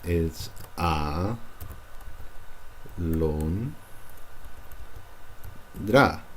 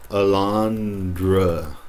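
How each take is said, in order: First: A lon dra split into slow clear syllables. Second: Very slow alondra with English schwa; wrong alondra. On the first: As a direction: break alondra into pure syllables. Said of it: "It's not alondra". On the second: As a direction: drag alondra with English vowels. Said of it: "some of you might say". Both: Shown as a demonstration.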